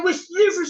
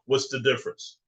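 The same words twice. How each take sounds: First: It is said in a put-on character voice. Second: It is said in his normal voice.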